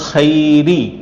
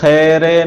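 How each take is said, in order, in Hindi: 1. शब्द एक साफ़ 'ee' स्वर पर खत्म होता है। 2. शब्द 'ay' स्वर पर खत्म होता है। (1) "खैर राजिर री है" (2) "इलल खैरे नहीं पढ़ना"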